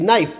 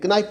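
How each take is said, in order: First: नाइफ with a silent K; correct pronunciation. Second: नाइफ said wrongly with the K sounded; wrong pronunciation. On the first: Teacher shows the sound of नाइफ, K left silent. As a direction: start नाइफ straight on the N sound. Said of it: "sound क्या है?". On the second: Teacher shows how not to say नाइफ, K wrongly sounded. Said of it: "नाइफ नहीं होता". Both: Shown as a demonstration.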